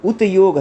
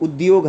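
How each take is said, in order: First: "उतयोग" with a separate t before y; pronunciation contrast. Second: Said in the usual way. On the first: Shown as a demonstration. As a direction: say "उतयोग" as ut-yog, the t unvoiced and unmerged. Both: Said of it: "उच्चारण और लिपि में अंतर होता है".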